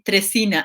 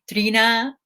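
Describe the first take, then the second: First: The name begins with the sound 'tres'. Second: The name begins with the sound 'tree'. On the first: This is how Spanish speakers read it. "Spanish speakers say Tresina" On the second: This is how English speakers read it. "English speakers say Trina"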